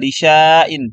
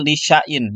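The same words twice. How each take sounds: First: The vowel is drawn out long. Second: The vowel is kept short. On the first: "Di sini tertulisnya lisyain" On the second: "dibacanya menjadi lisyain, ya, dipendek"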